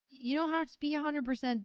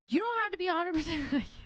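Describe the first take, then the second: First: It is said plainly, with little energy. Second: It is said with more energy and passion. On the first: "That needs work" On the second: "say it with more passion"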